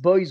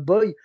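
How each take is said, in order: First: The final s sound is pronounced. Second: The final s sound is left silent. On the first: The speaker calls it wrong. "ils disent Boys" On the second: The speaker calls it right. "au lieu de de Boy"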